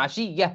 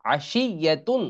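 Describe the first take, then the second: First: "আশিয়া" closing on a breathed h; pausal ending. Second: "আশিয়াতুন" with long shi and sounded "তুন"; full ending. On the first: Teacher showing the word when one stops, "আশিয়া" with pausal h. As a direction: stop on "আশিয়া", no "তুন", just h. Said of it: "এখানে যদি থামি তাহলে". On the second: Teacher reading the spelled word unstopped, "আশিয়াতুন" with full ending. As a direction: hold the middle of "আশিয়াতুন", finish on full "তুন". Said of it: "এখানে যদি থামি". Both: Shown as a demonstration.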